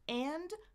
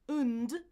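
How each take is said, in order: First: The word is said fully with its vowel. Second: A weak schwa vowel is followed by n and d. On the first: "four ways to say the word A N D" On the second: "is the reduced version"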